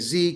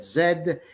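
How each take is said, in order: First: The letter is said the American way. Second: The letter is said the Canadian way. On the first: "I know Americans say Z" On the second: "Canadians said Z"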